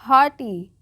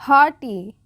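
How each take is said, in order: The two takes are said the same way.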